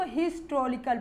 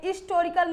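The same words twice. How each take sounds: First: Historical with its h pronounced; sounded h in historical. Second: Historical with the h dropped; h-less historical. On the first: Teacher showing the modern reading, historical with h. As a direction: say the h of historical clearly. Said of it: "हा का sound". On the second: Teacher showing the rejected reading, historical without h. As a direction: open historical on "i", no h. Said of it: "बल्कि इसको हिस्टोरिकल पढ़ने लगे". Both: Shown as a demonstration.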